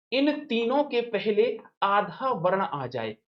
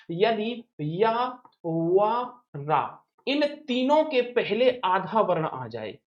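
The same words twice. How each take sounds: First: Said in the usual way. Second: "इन तीनों के पहले आधा वर्ण आ जाए" said slowly, word by word; slow dictation. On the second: Shown as a demonstration. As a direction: dictate the rule slowly so students can write it. ("इन तीनों के पहले आधा वर्ण आ जाए" धीरे-धीरे, शब्द-शब्द बोलकर) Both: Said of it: "ये ट्रिक कहती है".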